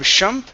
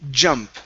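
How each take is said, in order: First: The word begins with a soft sh sound. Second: The word begins with a hard j sound. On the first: The speaker calls it wrong. "instead of shump" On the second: The speaker calls it right. "like a J, J sound"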